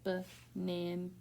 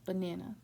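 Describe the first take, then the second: First: "Banana" slowly split as ba, nan, a; slow teaching "Banana" with separated syllables. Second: Said in the usual way. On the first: Shown as a demonstration. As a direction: sound out "Banana" in three parts, full vowel in the middle. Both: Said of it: "Where do you hear that full vowel".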